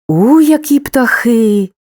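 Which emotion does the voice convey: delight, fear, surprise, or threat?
surprise. The voice sounds surprised and astonished. The speaker did not expect this. "здивування"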